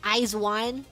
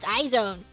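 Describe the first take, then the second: First: It is said as 'eyes' plus 'one'. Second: It is said as 'eye' plus 'zone'. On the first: The speaker calls it right. "That's how you pronounce it" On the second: The speaker calls it wrong. "if it's not pronounced iZone"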